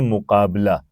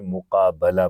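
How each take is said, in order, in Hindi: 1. 'b' के बाद वाली स्वर ध्वनि 'i' की आवाज़ है। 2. 'b' के बाद वाली स्वर ध्वनि 'a' की आवाज़ है। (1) "हम बोलते हैं मुकाबला" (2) "अरबी में जब वो पढ़ेंगे तो उसे मुकाबला पढ़ेंगे"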